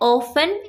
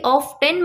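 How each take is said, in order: First: The t sound is silent. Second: The t sound is clearly pronounced. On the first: The speaker calls it right. "टी इसमें silent होता है। इसको बोलना है ऑफन" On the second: The speaker calls it wrong. "ऑफन को आप कभी भी ऑफ टेन मत बोल दीजिएगा"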